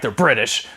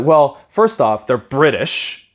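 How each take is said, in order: First: Said in the usual way. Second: Slow scornful dad. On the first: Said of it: "As if that could be". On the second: Retold or imitated. Dad warns his son about the British, slow and scornful. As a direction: hand down the verdict slowly like a suspicious father. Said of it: "He's like".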